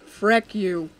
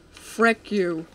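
Both takes have the same delivery.

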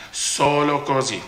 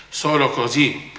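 Both takes have the same delivery.

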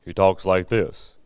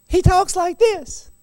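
First: Very low, slow deep voice; deep grown-up voice; deep man voice. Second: Put-on high, slow childish voice; high little-boy voice. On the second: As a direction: squeak it like a young boy. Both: Shown as a demonstration.

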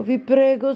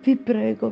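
First: The plea pushed much higher and louder; desperate pleading. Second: A higher, frightened plea; pleading. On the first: Alice begging the Duchess, rising desperate plea. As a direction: beg harder, near panic. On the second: Alice begging the Duchess, frightened plea. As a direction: beg her to stop, scared. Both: Acted.

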